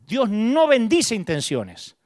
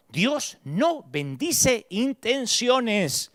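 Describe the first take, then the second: First: Slow, weight on "bendice"; stress on bendice. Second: Very slow, each word weighed on "no"; slow, deliberate. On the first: Preacher repeating the truth, stressing "bendice". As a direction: lean on "bendice" slowly. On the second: Preacher drilling a key truth, very slow. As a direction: drag "Dios no bendice intenciones" out word by word. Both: Shown as a demonstration. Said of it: "Quiero que te grabes esto".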